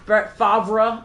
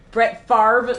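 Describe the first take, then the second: First: The R sound comes after the V sound. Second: The R sound comes before the V sound. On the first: "it's spelled V then R" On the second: "pronounce the R before the V"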